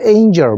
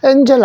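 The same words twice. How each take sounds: First: The first vowel is a gliding 'ay' sound. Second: The first vowel is a short 'eh' sound. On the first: The speaker calls it right. "angel 맞다" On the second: The speaker calls it wrong. "angel 아닌데"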